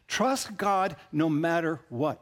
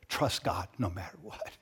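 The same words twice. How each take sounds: First: Slow, weighty, each word set down; slow emphatic refrain. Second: Soft low refrain. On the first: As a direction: press it home slowly, stress on Trust. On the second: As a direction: lower and softer, gently rising at the end. Refrain repeated softly. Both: Real, not acted.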